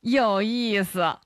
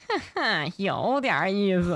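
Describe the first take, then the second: First: It is said in a plain, ordinary voice. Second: It is said in a sly villain's voice.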